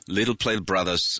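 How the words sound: It is said in an American English accent. The speaker calls it wrong. "아메리칸 스타일로"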